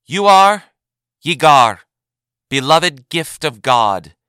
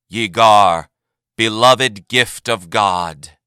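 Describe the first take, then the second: First: Loud, slow ceremonial naming; proclamation. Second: Slow, loud solemn repeat; echoed proclamation. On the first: Advocate General names Yagar before the assembly, loud and slow. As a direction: declare the name to all. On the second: The name is repeated to the assembly, slow and solemn. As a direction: repeat it like a chant. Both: A narrator's reading.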